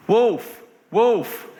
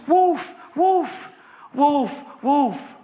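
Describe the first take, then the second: First: Raised cry, falling away; mock alarm call. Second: Very high repeated shout; frantic alarm cry. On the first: Bored boy tricking the villagers, mock alarm call. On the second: Acted. Boy calling villagers as real wolf comes, frantic. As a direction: cry for help in acted panic.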